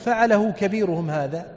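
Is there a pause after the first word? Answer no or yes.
no. The phrase runs on with no pause. The biggest idol did it. "فظنوا أنه يقول فعله كبيرهم هذا"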